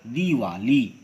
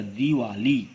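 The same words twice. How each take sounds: First: "दिवाली" with a long ई in the first syllable; correct pronunciation. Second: "दिवाली" with a short इ in the first syllable; incorrect pronunciation. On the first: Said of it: "दीर्घी की मात्रा लगाकर". ("दिवाली" का शुद्ध उच्चारण, पहली ई दीर्घ) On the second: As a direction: keep the first i of "दिवाली" brief. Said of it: "यह अशुद्ध है". ("दिवाली" का अशुद्ध उच्चारण, पहली इ ह्रस्व) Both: Shown as a demonstration.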